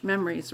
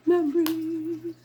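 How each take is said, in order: First: Said in the usual way. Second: High, slow, put-on wistful voice; mock dreamy memories. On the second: Playfully pretending to be someone else, a high drawn-out sigh. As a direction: stretch it out like a playacted character. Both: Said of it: "I can't pretend to be her".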